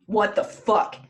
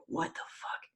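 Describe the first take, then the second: First: Louder, retold burst of disbelief; mock shocked outrage. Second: Hushed, whispery mock fury; Odin. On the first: Retelling Freya finding her hair gone, mock outrage. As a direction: act out a mildly outraged reaction. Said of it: "She's like". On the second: Retelling Odin waking up pissed, hushed mock anger. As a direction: act pissed off under your breath, almost voiceless. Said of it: "and he's pissed".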